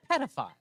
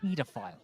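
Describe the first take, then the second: First: Pedophile said softly as "PED-uh-file"; short "eh" opening Pedophile; short PED pronunciation. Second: Pedophile said softly as "PEE-duh-file"; long "ee" opening Pedophile; long PEE pronunciation. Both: Shown as a demonstration. Compares the two pronunciations again.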